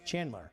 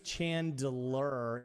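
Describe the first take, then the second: First: The D sound is left out. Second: The D sound is clearly pronounced. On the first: The speaker calls it right. "it's kind of like a silent D" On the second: The speaker calls it wrong. "Nobody goes Chandler"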